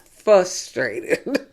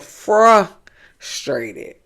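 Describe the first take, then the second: First: The first syllable drops the r, like fuss. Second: The first syllable has an r, like fruss. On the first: The speaker calls it wrong. "not fuss like you fussing" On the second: The speaker calls it right. "it's frustrated. Like fraternity"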